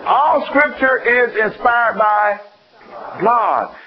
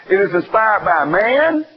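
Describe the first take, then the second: First: All drawn out slow and weighty, then a pause before God; stress on All. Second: Man hit hard as the wrong answer; stress on man. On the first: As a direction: slowly lean on All and hold before God. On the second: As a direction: slowly lean on man to mock the error. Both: Shown as a demonstration.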